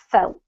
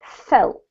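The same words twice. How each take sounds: First: Felt, said once more, low; pronunciation model. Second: Felt, said clearly, falling; pronunciation model. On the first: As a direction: say felt again for the student. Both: Shown as a demonstration. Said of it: "just two little words here".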